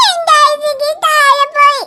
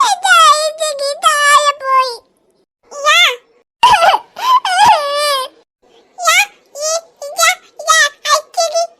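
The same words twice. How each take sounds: First: Said in the usual way. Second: Crying. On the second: Acted. Little girl cries to dad over her dropped ice cream, tearful wail. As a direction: sob it out like a heartbroken little kid.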